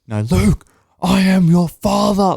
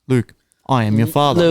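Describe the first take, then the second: First: It is said in a Darth Vader voice. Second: It is said in a plain, ordinary voice.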